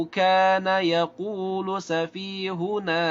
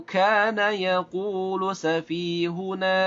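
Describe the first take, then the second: No difference in how they are said.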